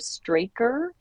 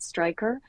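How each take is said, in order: First: The first vowel sounds like 'ay'. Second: The first vowel sounds like 'eye'. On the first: It is read straight from the spelling. "if you were to do it phonetically" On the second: It is how the company says it. "I think they pronounce it Stryker"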